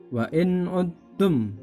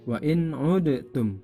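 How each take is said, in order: First: The d sound merges into the following t. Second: The d sound is heard separately before t. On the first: The speaker calls it right. "Jadi dalnya hilang, masuk kepada huruf ta" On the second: The speaker calls it wrong. "tidak dibaca wa in udtum"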